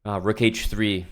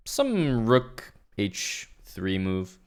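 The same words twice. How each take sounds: First: Said in the usual way. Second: Slow drawn-out pundit suggestion; chess commentator voice. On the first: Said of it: "if you wanna sound like a good chess commentator". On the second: Pretend. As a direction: lean on some, slow and vague. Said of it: "another really good, uh, chess commentator word is the word sum".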